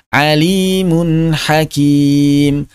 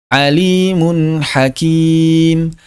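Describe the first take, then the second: The two takes are said the same way.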